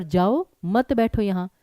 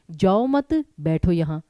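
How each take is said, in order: First: "जाओ", pause, then "मत बैठो यहाँ" together; slow, split after "जाओ". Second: "जाओ मत" together, pause, then "बैठो यहाँ"; slow, split after "मत". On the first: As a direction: break before मत, joining it to बैठो. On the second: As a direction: join मत to जाओ, break before बैठो. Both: Shown as a demonstration. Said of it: "मैंने कुछ और कहा, आपने कुछ और समझा".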